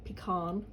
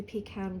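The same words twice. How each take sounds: First: "pecan" said pee-KAHN, American style; "pecan" with a long ah, pih-KAHN; American pronunciation. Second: Said in the usual way. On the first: Retold or imitated. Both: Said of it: "or as they say".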